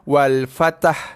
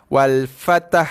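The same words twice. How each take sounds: The two takes are said the same way.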